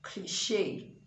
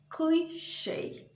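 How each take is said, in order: First: The stress is on the last syllable. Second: The stress is on the first syllable. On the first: This is the French pronunciation. The speaker calls it wrong. "and not cliche. That's okay if it's French" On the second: This is the English pronunciation. The speaker calls it right. "In English, that word is cliche. So the stress is on the first syllable"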